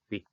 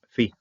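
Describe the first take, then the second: First: The word begins with a p sound. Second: The word begins with an f sound. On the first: "Pi es uh, boca" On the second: "Si no hay tags aquí, entonces pronunciación F"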